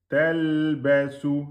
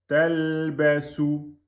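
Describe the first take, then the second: The two takes are said the same way.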